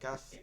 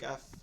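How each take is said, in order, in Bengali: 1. শব্দটি f উচ্চারণে শেষ হয়। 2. শব্দটি f উচ্চারণে শেষ হয়।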